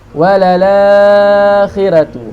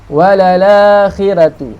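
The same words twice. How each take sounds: First: The long vowel is held for four beats. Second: The long vowel is held for two beats. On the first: "empat harakat" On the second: "Dua harakat"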